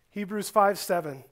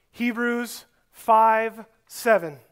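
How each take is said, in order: First: Said in the usual way. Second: Slow, careful reference read for note-taking; slow dictation. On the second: Shown as a demonstration. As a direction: spell it out slowly so they can write it down. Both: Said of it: "You can write down this reference".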